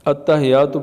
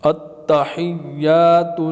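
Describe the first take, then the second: First: The 'y' sound is short and single. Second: The 'y' sound is held long and doubled. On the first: The speaker calls it wrong. "अत्तहियातु पढ़ना गलत है" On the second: The speaker calls it right. "फिर या के ऊपर शद है।"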